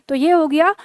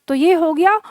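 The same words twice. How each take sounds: The two takes are said the same way.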